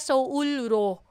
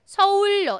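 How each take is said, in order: First: The ending starts with an L then R sound. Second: The ending starts with a double L sound. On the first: The speaker calls it wrong. "Hindi na siya Seoul-ro. Walang Seoul-ro. Mahirap bigkasin" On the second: The speaker calls it right. "double L na po yan"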